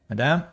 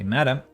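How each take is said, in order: First: The word is said with a French pronunciation. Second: The word is said with an English pronunciation. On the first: The speaker calls it wrong. "I always switch to French pronunciation with this word madame" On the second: The speaker calls it right. "because I should say madam"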